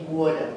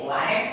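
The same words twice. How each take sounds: First: New Jersey "Water", first vowel rounded to aw; New Jersey "Water" with mouth pulled back; New Jersey accent. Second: "Water" with an open ah vowel; non-Jersey pronunciation. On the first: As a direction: say "Water" as WAW-duh, New Jersey style. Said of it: "We say". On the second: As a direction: say "Water" as outsiders do, unrounded ah. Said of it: "You say". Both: Shown as a demonstration.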